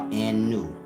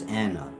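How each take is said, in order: First: The final vowel is an 'oo' sound. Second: The final vowel is an 'ah' sound. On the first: The speaker calls it wrong. "Anna or Anu" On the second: The speaker calls it right. "but it's Anna"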